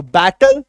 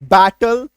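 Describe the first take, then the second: First: बैटल said louder with a rising tune; loud model word. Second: बैटल said louder as "bat-tal"; loud model word. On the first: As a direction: model बैटल as "bat-tal" for learners. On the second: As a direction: give the class बैटल once more, firmly. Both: Shown as a demonstration. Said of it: "उच्चारण कैसे करेंगे".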